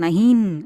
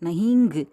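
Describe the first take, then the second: First: The word ends with a full n consonant. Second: The word ends with an added 'ngu' syllable. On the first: "அப்படியெல்லாம் சொல்லக்கூடாது" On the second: "அப்படியெல்லாம் சொல்லக்கூடாது"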